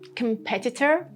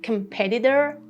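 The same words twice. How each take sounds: First: The middle t is a clear t sound. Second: The middle t is a soft d-like flap.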